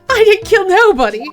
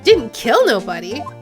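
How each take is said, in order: First: It is said in a natural, unchanged voice. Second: It is said in a changed character voice.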